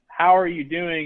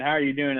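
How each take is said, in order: First: It sounds like a sincere, interested question. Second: It sounds like a quick, automatic greeting.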